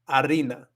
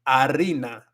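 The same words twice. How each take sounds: The two takes are said the same way.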